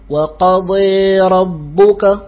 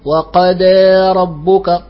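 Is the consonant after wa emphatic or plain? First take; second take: emphatic; plain. First: The dad is emphatic, with the tongue raised. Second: The sound is a plain d, without emphasis. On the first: The speaker calls it right. "لا بد أن نحافظ على الإطباق" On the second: The speaker calls it wrong. "ولا نقول وقد ربك ... فتصير الضاد دالا"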